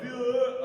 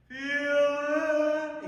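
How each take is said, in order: First: "feel it" sung without a clean E; mock the student's wrong vowel on "feel it"; imitating the wrong vowel. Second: "Feel it" sung high on a clean E; sung correctly. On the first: Teacher imitating the student's mistake on the vowel. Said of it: "but it wasn't E". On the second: Shown as a demonstration. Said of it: "He did, like, feel it".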